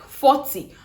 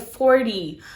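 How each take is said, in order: First: It is said in the speaker's usual, non-American accent. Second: It is said in an American accent.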